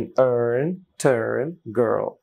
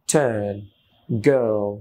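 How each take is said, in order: First: Put-on American r sounded in "earn, turn, girl"; American style. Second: Put-on British "turn, girl" with silent r; British style. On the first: Teacher demonstrates for learners, American accent. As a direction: curl the American r in each word. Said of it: "American স্টাইলে বলার চেষ্টা করছি". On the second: Teacher contrasts with American, British accent. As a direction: drop the r, British and drawn out. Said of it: "British হলে এখানে এই রটা উচ্চারণ হতো না". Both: Shown as a demonstration.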